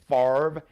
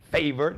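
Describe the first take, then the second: First: The name does not sound like 'favor'. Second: The name sounds like the word 'favor'. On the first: The speaker calls it right. "Brett Favre is actually pronounced Favre" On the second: The speaker calls it wrong. "I like to just mess up his name purposely"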